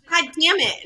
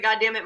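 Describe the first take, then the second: First: Mimicked child voice, higher; cheeky kid repeats "God damn it"; toddler repeating the curse. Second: Said in the usual way. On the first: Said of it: "And she's like". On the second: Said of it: "and I said".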